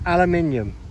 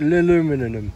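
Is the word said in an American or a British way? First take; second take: British; American. First: The word is said with a British pronunciation. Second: The word is said with an American pronunciation. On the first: "It's aluminium" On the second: "How do the Americans say it?"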